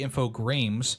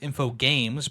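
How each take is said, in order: First: The name is said with an r after g. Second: The name is said without an r after g. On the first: The speaker calls it right. "but it's actually Infogrames" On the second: The speaker calls it wrong. "a lot of people mispronounce as Infogames"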